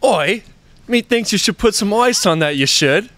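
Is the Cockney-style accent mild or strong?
mild. The accent is put on lightly and mildly. "you should need to lean into it a little bit more"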